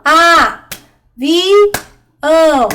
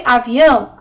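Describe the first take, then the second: First: A - vi - ão, three beats with long gaps; syllable by syllable. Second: Said in the usual way. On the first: Shown as a demonstration. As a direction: count out "A, vi, ão" as separate syllables for children. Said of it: "vai contar as sílabas". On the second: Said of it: "Vamos ver".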